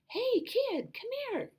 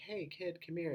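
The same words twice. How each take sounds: First: It is said in a high, Elmo-like voice. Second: It is said in a normal, lower voice.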